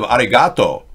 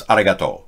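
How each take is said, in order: First: Arigato with English stress on the ga; wrong arigato. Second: Arigato evenly, no stressed syllable; correct arigato. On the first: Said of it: "So instead of arigato". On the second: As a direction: say arigato flat Japanese style. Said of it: "No accent on arigato". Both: Shown as a demonstration.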